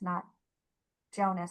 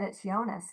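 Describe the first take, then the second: First: The name begins with a hard J sound. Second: The name begins with a soft Y-like sound. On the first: The speaker calls it wrong. "not a hard J" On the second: The speaker calls it right. "It is a soft J"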